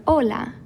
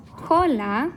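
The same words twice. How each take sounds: First: "hola" starting straight on the O, no H sound; silent H. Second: "hola" with a breathed English H at the start; H pronounced. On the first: Teacher offering the correct option to learners, "hola" with a silent H. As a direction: drop the H in "hola". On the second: Teacher offering the wrong option to learners, "hola" with an audible H. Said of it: "the H in this word is not". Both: Shown as a demonstration.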